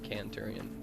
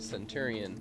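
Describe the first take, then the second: First: The word begins with a k sound. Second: The word begins with an s sound. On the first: "they pronounce it as Canturian" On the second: "the word centurion"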